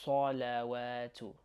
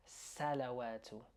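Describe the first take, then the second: First: Salawatu starting like saw, drawn out; heavy S in salawatu. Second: Salawatu starting with a front A, as in sat; light S in salawatu. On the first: Teacher showing the right letter, heavy slow salawatu. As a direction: darken the first syllable of salawatu toward saw. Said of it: "we're gonna say sa". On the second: Teacher showing what to avoid, light-S salawatu. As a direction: keep the first syllable of salawatu thin. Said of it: "rather than". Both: Shown as a demonstration.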